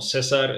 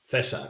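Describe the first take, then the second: First: César with a hissed S, the wrong way; S sound. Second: César with a th at the start; Castilian th. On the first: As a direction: say César with a plain S. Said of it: "It's not César". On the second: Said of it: "It's not César, it's César". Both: Shown as a demonstration.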